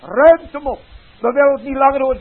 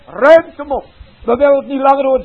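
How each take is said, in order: First: Loud, higher, fast and furious; angry crowd. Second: Even louder, higher, fast furious yell; angrier crowd. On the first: Crowd shouting down the preacher's message, fast furious yell. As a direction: throw the words out in disgust. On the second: Crowd shouting the message away, full fast furious yell. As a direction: hammer it home at full force. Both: Acted.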